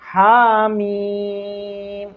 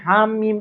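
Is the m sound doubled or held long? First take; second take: long; doubled. First: The m syllable vowel is held long. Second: The m sound is doubled, not held long. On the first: The speaker calls it right. "हा को कम खींचना है ... मीम को ज्यादा खींचना है" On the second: The speaker calls it wrong. "मीम को मुशद्दद पढ़ते, हामीम हामीम इस तरह से पढ़ते हैं, तो ये गलत है"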